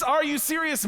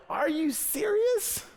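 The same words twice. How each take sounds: First: High, quick repeat of the outburst; a clipped, higher echo of the shock; quick disbelief. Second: High, slow, stretched-out disbelief. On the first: Retold same outrage, shorter. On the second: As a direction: drag out serious in shock. Retold outrage at tiny paycheck. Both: Retold or imitated.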